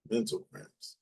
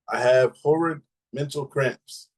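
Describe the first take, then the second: First: "Mental cramps" murmured much softer, puzzled; puzzled repeat. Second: Said in the usual way. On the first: Shown as a demonstration. Rereading a comment, she softly repeats "Mental cramps" in puzzlement. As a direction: quietly question the odd phrase "Mental cramps". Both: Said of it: "yeah, it says mental cramps".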